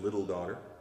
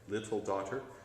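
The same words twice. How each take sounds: First: The middle of 'little' has a D sound. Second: The middle of 'little' has a T sound. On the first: The speaker calls it wrong. "Instead of the T sound, you said the D sound" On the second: The speaker calls it right. "It's a T sound"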